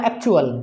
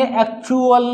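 First: "एक्चुअल" with a quick, short chu; short u sound. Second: "एक्चुअल" with the u stretched, ek-choo-al; "एक्चुअल" with a long oo; over-long u. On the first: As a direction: keep the u in "एक्चुअल" short, pitch falling. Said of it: "छोटा sound बोलना है". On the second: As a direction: drag the "chu" in "एक्चुअल". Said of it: "एक्चुअल नहीं बोलना". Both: Shown as a demonstration.

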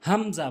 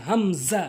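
First: হামজা short with a falling plain end; wrong pronunciation. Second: হামজা with held m and buzzing z, rising; correct pronunciation. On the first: Teacher showing learners the mistake, wrong হামজা. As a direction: say হামজা quickly, light z. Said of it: "ভুল উচ্চারণ". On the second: Teacher modelling for learners, correct drawn-out হামজা. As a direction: lengthen both halves of হামজা. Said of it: "সঠিক উচ্চারণ হচ্ছে". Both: Shown as a demonstration.

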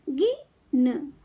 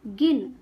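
First: गिन slowly, with a gap before न; sound by sound. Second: Said in the usual way. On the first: Shown as a demonstration. Teacher teaching kids to read, sounds apart. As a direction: break गिन into गि - न. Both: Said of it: "शब्द पढ़ना सिखाऊंगी".

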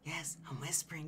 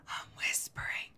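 First: Unvoiced whisper. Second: Soft unvoiced whisper; whispering it again to make the point. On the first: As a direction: breathe it without voice. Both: Shown as a demonstration.

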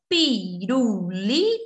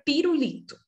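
First: "pirulito" slowly broken into pi-ru-li-to; a pause after each syllable of "pirulito". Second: Said in the usual way. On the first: Shown as a demonstration. Teacher helping pupils find syllables, "pirulito" slowly syllable by syllable. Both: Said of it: "falar devagarzinho pra vocês tentarem encontrar as sílabas".

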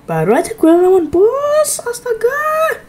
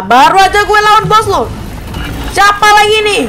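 First: Half laughing, half crying out, slowing down; laughing disbelief. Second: Louder, higher, fed up at another boss; exasperated outburst. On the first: Gamer laughing at facing yet another boss, laughing yelp. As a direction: crack up in despair, voice jumping up. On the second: Gamer protesting a new boss, exasperated loud outburst. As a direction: groan it out loud at the screen. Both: Real, not acted.

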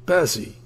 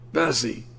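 First: Higher and louder repeat of the name; fiendish yell. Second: Opening call of the name, rising; fiendish yell. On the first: Invalid father bellowing for daughter, full fiendish yell. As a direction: bellow it out fully now. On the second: Invalid father bellowing for daughter, first call. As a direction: start the yell, still held back. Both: A narrator's reading. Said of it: "yelled for her in a fiendish voice".

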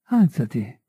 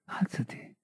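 First: Said in the usual way. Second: Breathy whisper, much softer. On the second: A narrator's reading. Felix murmuring to kneeling Marie, a whisper. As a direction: barely voice it, a hush. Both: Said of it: "e mormorò".

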